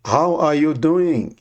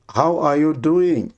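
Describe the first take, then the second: No difference in how they are said.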